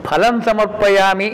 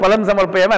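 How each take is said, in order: First: ఫలం with a breath-puffed "ph", slowly intoned; aspirated first consonant. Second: ఫలం said as "palam", with a plain p; unaspirated first consonant. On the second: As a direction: say ఫలం without any puff of breath. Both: Shown as a demonstration. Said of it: "ఆ ఒత్తు పలకలేదనుకో".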